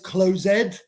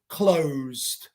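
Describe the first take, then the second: First: The ending is said as an extra syllable. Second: The ending adds no extra syllable. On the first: The speaker calls it wrong. "No es closed" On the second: The speaker calls it right. "it's closed"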